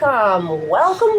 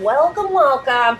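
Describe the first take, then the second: First: The voice is pitched lower. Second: The voice is pitched very high.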